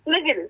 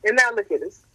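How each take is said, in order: First: Excited. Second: Said in the usual way. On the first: Real, not acted.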